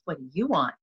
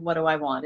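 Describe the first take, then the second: First: "What do you want?" leaning on "you"; stress on YOU. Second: "What do I want?" leaning on "I"; stress on I. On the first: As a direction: put the weight on "you", then let it fall. People pleasing question, turned to you. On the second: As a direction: put the weight on the word "I". Contrasts own want with other's. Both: Shown as a demonstration.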